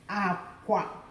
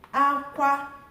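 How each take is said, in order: First: Both syllables are on a low tone. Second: Both syllables are on a high tone. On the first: It means bed. "Now look at the lo, lo" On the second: It means cry. "Hi, hi"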